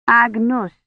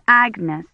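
First: "Agnus" with a rounded oo-like second vowel; foreign pronunciation. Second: Said in the usual way. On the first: A narrator's reading. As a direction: say "Agnus", ending in -noos rather than -ness. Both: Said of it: "He pronounced Agnes, Agnus".

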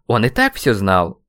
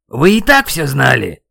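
First: Said in the usual way. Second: Loud, raised-pitch accusing shout; shouting over wind. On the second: A narrator's reading. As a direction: yell it over a headwind. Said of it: "Старался я перекричать встречный ветер". (крик сквозь встречный ветер)

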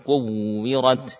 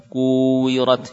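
First: Kuwirat slow with the doubled w raised and pressed; nabr on the wawu. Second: Said in the usual way. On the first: Shown as a demonstration. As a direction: lean on the shadda in kuwirat, slowly. (kuwirat dibaca pelan dengan nabr pada wawu) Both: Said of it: "tampakkan dengan nabr".

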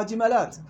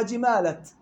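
First: جمالات with a long alif after the lam; the plural reading جمالات. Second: جمالت with a short a before the t, no alif; the singular reading جمالت; Hafs reading جمالت. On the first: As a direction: say جمالات stretching the aa before the final t. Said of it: "في غير حفص". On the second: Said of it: "حفص قرأها جمالت". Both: Shown as a demonstration.

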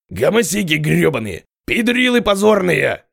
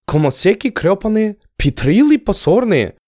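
First: Furious high yelling, slowed; raging shout. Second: Entranced, puzzled echo of the words; bewildered repeating. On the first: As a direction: spit the insults out in rage. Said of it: "ярился Костоправ". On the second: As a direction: repeat it spellbound, not understanding. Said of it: "завороженно непонимающе повторил Аскел". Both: Acted.

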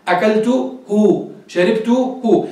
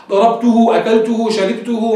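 First: Each word stretched slowly, أكلته and شربته with the final هُ sounded clearly; drawn-out demo. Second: Said in the usual way. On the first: Shown as a demonstration. Teacher to students, showing the pronoun ending, drawn out slowly. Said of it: "جرب قول ضربته". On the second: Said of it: "هاء الضمير يقصد بها للمفرد المذكر".

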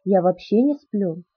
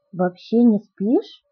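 First: "вообще не сплю" slow, falling at the end; statement. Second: "Вообще не спишь" slow, soaring at the end; stunned query. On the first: Edward tells Bella about himself, "вообще не сплю" as a slow falling statement. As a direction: state "вообще не сплю" as plain fact, unhurried. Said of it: "прошептал Эдвард". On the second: Bella checks Edward's claim, "Вообще не спишь" as a stunned rising question. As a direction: echo "Вообще не спишь" in disbelief, lifting the end. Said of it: "ошеломлённо переспросила я". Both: A narrator's reading.

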